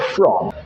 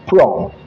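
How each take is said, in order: First: The word begins with an 'f' sound. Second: The word begins with a 'p' sound. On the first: "instead of from" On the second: "he replaced the F there with a letter P"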